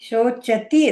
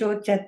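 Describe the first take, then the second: First: The word ends with a 'ti' sound. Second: The word ends with a 'ta' sound. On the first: The speaker calls it right. "ಶೋಚತಿ ಅದು" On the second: The speaker calls it wrong. "ಶೋಚತ ಅಲ್ಲ"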